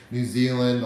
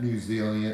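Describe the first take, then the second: First: New Zealand said again louder and clearly, full final nd; corrected name. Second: New Zealand mumbled and clipped, the end trailing off as nu zili; fumbled name. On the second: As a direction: trip over New Zealand, half-swallowing the end. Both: Real, not acted. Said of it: "I can't even speak".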